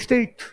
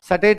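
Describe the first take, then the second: First: The opening s-t cluster is said without a vowel. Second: An extra vowel splits the opening s-t cluster. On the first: The speaker calls it right. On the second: The speaker calls it wrong. "सटेट नहीं"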